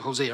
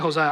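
First: The name is said with an English pronunciation. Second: The name is said with a Spanish pronunciation. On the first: This is how the audience usually says it. "I think you guys pronounce it Hosea" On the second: This is how the speaker personally says it. "I think that's a Spanish way of pronouncing it"

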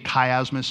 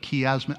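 First: The first syllable does not sound like 'key'. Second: The first syllable sounds like 'key'. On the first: The speaker calls it wrong. "why do we say chiasmus" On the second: The speaker calls it right. "which you pronounce key"

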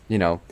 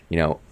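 No difference in how they are said.

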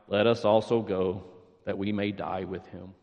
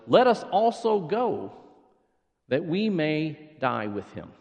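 First: It is said in a gloomy Eeyore voice. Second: It is said in his normal voice.

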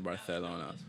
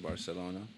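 First: The c is said as a lisped th sound. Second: The c is said as a plain s sound. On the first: This is how Spanish is spoken in Spain. "They wouldn't say the th. They wouldn't say Barcelona" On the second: This is how Spanish is spoken outside Spain. "where you're from, they wouldn't say it like that, right? They'd say Barcelona"

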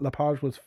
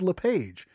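First: The name is pronounced with French sounds. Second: The name is pronounced with English sounds. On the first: The company comes from Quebec. "I use the proper French pronunciation" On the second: The company comes from English-speaking Canada. "if it was a company that was founded in your part of Canada, I would have said Lepage"

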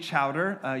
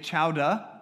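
First: The word ends with a clear r sound. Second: The word ends in an open vowel, no r. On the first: The speaker calls it wrong. "You don't say chowder" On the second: The speaker calls it right. "You say chowda"

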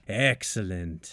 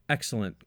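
First: It is said in a Monty Burns impression. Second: It is said in a plain narrating voice.

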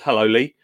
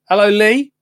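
First: The greeting is said in a plain, ordinary way. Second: The greeting is said in an exaggerated, showy way. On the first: The speaker calls it right. "She just says" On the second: The speaker calls it wrong. "Didn't say it like that"

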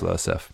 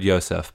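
First: The name begins with an L sound. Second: The name begins with a Y sound. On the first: This follows the spelling found on web pages. The speaker calls it right. "but I think it's Losef" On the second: This is how the name was heard in the show. The speaker calls it wrong. "So I heard Yosef"

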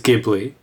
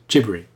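First: The word is pronounced the original Italian way. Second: The word is pronounced the Japanese-rendered way. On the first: This is the source word's own pronunciation. "The correct pronunciation of the word that it derives from is Ghibli" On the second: This is how the company name is rendered in Japanese. "The way it's rendered in Japanese, for whatever reason, is as Ghibri"

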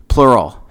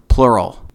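The two takes are said the same way.

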